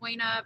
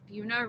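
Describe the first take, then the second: First: It is said the way it is spelled. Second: It is said with the local pronunciation. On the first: This is how the spelling suggests it. "It looks like Buena" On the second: This is how people there say it. "we say it wrong down here"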